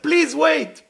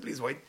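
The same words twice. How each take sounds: First: Loud, high shout after someone; acted urgent yell; urgent calling out. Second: Said in the usual way. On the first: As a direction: cry out to stop someone running away. Acted calling after man running away.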